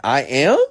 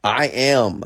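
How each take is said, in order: First: Louder, higher questioning I AM; incredulous echo. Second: Higher, emphatic mock claim; challenging insistence. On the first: Retold or imitated. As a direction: throw I AM back as a disbelieving question. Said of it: "I'm like". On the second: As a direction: state I AM firmly, imitating the challenger. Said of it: "they will challenge me".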